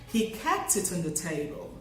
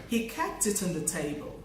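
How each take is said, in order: Both takes have the same delivery.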